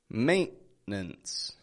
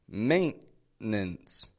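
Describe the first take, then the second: The two takes are said the same way.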